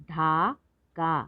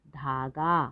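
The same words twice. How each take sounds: First: धागा slowly split as धा, गा; syllable by syllable. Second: Said in the usual way. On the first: Shown as a demonstration. Teacher sounding out धागा for learners, syllable by syllable. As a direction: hold each long syllable of धागा. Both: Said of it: "तो शब्द पढ़ते हैं".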